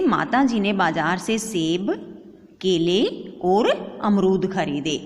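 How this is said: Short pauses separate the items in the list. The speaker calls it right. "अब मैंने यहां थोड़ा सा विराम रखा।"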